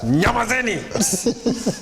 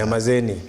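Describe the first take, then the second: First: It is shouted very loudly, like a blast. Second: It is said a bit louder.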